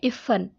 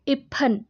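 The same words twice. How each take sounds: First: The middle consonant is an f sound. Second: The middle consonant is an aspirated p sound. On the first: "इसमें नुक्ता है" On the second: "ये बिना नुक्ते के है"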